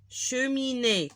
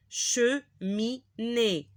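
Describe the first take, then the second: First: Said in the usual way. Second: Slow Cheminée, split as che-mi-née; syllable by syllable. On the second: Shown as a demonstration. Teacher reading cheminée for learners, syllable by syllable. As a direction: sound out CHEMINÉE with gaps between syllables.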